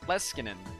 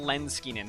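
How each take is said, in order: First: There is no N sound before the S. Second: There is an N sound before the S. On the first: The speaker calls it right. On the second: The speaker calls it wrong.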